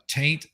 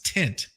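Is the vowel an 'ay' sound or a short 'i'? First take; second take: ay sound; short i. First: The vowel is a long 'ay' sound. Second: The vowel is a short 'i' sound. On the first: It reflects a Southern way of speaking. The speaker calls it wrong. "I'm mispronouncing it. ... because I'm from the South, I always say taint" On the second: It is the standard way of saying it. The speaker calls it right. "It's tint"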